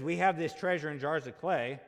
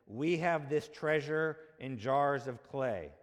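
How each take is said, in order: First: Louder, pressing hard on "have"; emphatic louder reading. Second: Each word laid down slowly and deliberately; slow weighty reading. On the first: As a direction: proclaim the verse with force on "have". Verse repeated for emphasis. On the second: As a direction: read the verse slow, letting "have" land. First reading of the verse. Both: Shown as a demonstration.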